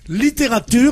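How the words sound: It is pronounced with French sounds. "En français, tu dis littérature"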